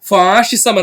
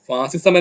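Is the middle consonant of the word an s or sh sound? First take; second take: sh; s. First: The middle consonant is an sh sound. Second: The middle consonant is a plain s sound. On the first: "കൃത്യമായി പറയുന്നത് ഫാഷിസം എന്നാണ്" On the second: "ഫാസിസം എന്നും പറയും"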